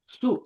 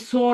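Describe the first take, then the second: First: The last syllable ends in a 'u'. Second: The last syllable ends in an 'o'. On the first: The speaker calls it right. "सा को थोड़ा नरमी से अदा करना है और पेश को पढ़ना है" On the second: The speaker calls it wrong. "है ही सो नहीं पढ़ना"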